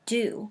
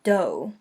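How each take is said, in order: First: The vowel is an oo sound, like too. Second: The vowel is a long O, like go. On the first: The speaker calls it right. "We say it do" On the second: The speaker calls it wrong. "it's not do"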